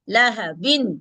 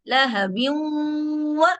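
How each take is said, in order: First: The final n is pronounced clearly on its own. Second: The n merges into a nasalized w sound. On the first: "नून साकिन की।" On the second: "थोड़ी सी नाक वाली आवाज भी निकालेंगे।"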